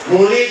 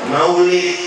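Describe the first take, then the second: First: The word is clipped into a shorter form. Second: The word is said in its full form. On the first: "Itu karena kecepatan bicara"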